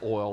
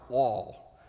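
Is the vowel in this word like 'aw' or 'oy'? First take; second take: oy; aw. First: The vowel glides like 'oy' in boy. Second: The vowel is a plain 'aw' like all. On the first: "when I say oil, I pronounce it like it's O-I-L" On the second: "When a Texan says oil, it's more like it's all"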